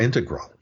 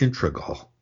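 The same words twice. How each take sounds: First: The r sound comes in the third syllable. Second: The r sound comes in the second syllable. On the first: The speaker calls it right. "is the way I say it" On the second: The speaker calls it wrong. "the R gets pushed back into the previous syllable"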